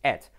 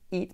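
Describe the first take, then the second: First: The vowel sounds like a Spanish e. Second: The vowel sounds like a Spanish i. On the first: The speaker calls it right. "pero realmente eso es et" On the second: The speaker calls it wrong. "que pronunciamos los españoles it"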